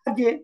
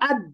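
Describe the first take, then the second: First: The final consonant bounces with a short echo. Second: The final consonant stops cleanly without a bounce. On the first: "bouncy উচ্চারণ হচ্ছে" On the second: "normal উচ্চারণ ছিল"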